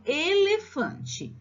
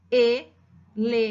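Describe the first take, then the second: First: Said in the usual way. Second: Slow ELEFANTE split into e-le-fan-te; four separate beats on ELEFANTE, long pauses between; syllable by syllable. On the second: Shown as a demonstration. Teacher showing what the child wrote, syllable by syllable.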